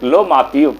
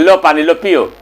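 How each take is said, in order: First: Understated, tender offering; a touch of affectionate respect; lovingly offered. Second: Mildly curt offering; a touch of impatient son; grudgingly offered. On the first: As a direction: hand it over kindly, like a devoted son. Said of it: "बड़ा प्यार से दिया". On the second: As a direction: hand it over without the tenderness. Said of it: "एक ही हाथ से". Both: Acted.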